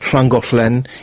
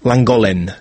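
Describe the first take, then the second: First: It begins with a hissing voiceless LL sound. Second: It begins with a plain English L sound. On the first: A local Welsh speaker says it. The speaker calls it right. "Вместо того, чтобы говорить" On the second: An English speaker who is not local says it. The speaker calls it wrong. "Они все говорят"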